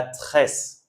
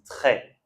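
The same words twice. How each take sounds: First: "tresse" with a hissed S at the end; sounded final S. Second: "très" ending on an open "è", no S; silent final S. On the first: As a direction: wrongly sound the last S in "tresse". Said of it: "On dit pas tresse". (tresse, le S final prononcé) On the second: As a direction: drop the last S of "très". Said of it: "on dit très". (très, le S final muet) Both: Shown as a demonstration.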